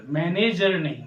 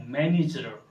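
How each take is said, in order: First: मैनेजर with a full e, man-ej-er; the wrong way, मैनेजर as man-ej-er; wrong manager. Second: मैनेजर with a short i, man-ij-er; मैनेजर the English way, man-ij-er; correct manager. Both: Shown as a demonstration. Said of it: "वो bank का मैनेजर है".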